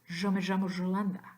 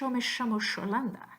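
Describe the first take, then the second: First: The y and ll sound like the s in pleasure. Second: The y and ll sound like English sh. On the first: "the Z with the hat, like in pleasure" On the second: "the S with the hat is simply the unvoiced version"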